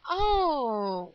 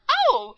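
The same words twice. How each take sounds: First: It is said in a disappointed way. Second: It is said in an excited way.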